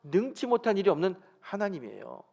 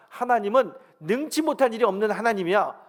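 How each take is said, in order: First: Said in the usual way. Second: Loud, high, emphatic proclamation; preacher's booming quote of God; forceful divine declaration. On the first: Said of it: "하나님은 어떤 하나님이라고요". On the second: Retold or imitated. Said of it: "하나님 강력하게 말씀하십니다".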